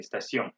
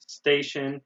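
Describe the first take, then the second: First: Station said the French way, stah-SYOH; French pronunciation. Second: Said in the usual way. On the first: Shown as a demonstration. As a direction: say station as in French, nasal end and no final n. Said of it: "in French we say station". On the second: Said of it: "in English we say station".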